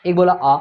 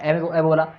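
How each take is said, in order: First: Long drawn आ; long vowel. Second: Quick, short ए; short vowel. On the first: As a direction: stretch आ out, twice as long as ए. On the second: Teacher contrasts the short vowel for students, clipped. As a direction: clip each ए off short. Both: Shown as a demonstration. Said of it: "देखो, ए".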